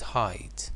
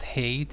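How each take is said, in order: First: The vowel sounds like 'eye' in 'high'. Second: The vowel sounds like 'ay' in 'day'. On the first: The speaker calls it right. "it's height" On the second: The speaker calls it wrong. "It's not hate"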